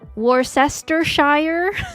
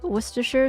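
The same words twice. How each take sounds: First: The 'shire' part is pronounced fully. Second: The 'shire' part is reduced and not said fully. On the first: This is the mistaken way of saying it. The speaker calls it wrong. "You don't say Shire, which is what I would have done accidentally" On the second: This is the accepted way of saying it. The speaker calls it right. "but you're actually supposed to call it Worcestershire sauce"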